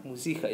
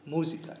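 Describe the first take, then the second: First: "Musica" echoed as mu-SI-ca; mu-SI-ca, unnatural middle stress. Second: "Musica" echoed as MU-si-ca; MU-si-ca, correct first-syllable stress. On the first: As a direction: put the weight on the I in "Musica". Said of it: "it sounded really unnatural". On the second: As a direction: put the weight on the U in "Musica". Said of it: "we stress the U". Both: Shown as a demonstration.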